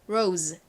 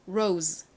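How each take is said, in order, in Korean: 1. 마지막 z 소리는 따로 터뜨려서 발음해요. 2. 마지막 z 소리는 따로 터뜨려서 발음해요.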